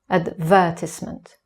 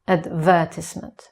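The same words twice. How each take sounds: First: The stress is on the second syllable. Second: The stress is on the second syllable.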